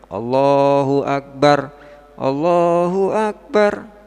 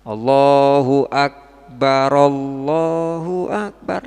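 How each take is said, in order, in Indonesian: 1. Kedua frasa itu dipisahkan oleh jeda. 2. Kedua frasa itu disambung tanpa jeda. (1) "kalau dipisah dengan satu tarikan nafas disukun dua-duanya boleh" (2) "lah disambung ngoten"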